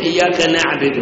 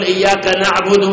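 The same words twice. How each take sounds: First: نعبد misread as naʕbid with an i sound on the ba; نعبد said wrongly as naʕbid, kasra on the ba; إياك نعبد recited with the error نعبد as naʕbid; mistaken reading. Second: نعبد read naʕbudu with the ba rounded, u sound; نعبد said correctly as naʕbudu, damma on the ba; إياك نعبد recited right, نعبد ending in u. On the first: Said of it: "قلت". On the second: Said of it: "بدال ما تقول". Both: Shown as a demonstration.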